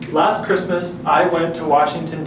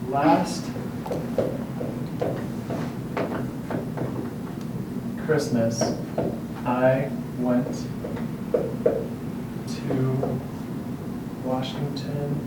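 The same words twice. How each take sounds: First: The speech is slow, clear and projected. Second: The speech is muffled and hard to catch. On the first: The speaker calls it right. "project your voice with slow, clear speech" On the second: The speaker calls it wrong. "if we do this, chances are the students will not catch what we're saying"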